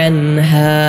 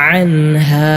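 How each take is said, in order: Both takes have the same delivery.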